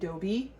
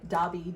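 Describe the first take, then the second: First: The first vowel sounds like the one in 'owe'. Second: The first vowel sounds like the one in 'odd'. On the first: Someone else mispronounced the name this way. The speaker calls it wrong. "she was calling Dobby Dobie" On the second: This is the character's real name. The speaker calls it right. "she was calling Dobby"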